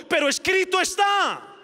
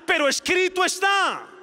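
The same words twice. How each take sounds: First: "Pero escrito está" proclaimed high and loud, stress on "está"; triumphant declaration of "Pero escrito está"; declaring scripture. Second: "Pero escrito está" shouted high, hammering "está"; triumphant shout of "Pero escrito está"; declaring scripture. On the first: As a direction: ring out "está" with a falling close. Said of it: "Jesús dijo". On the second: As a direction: shout "está" as the final blow. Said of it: "Jesús le decía". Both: Acted.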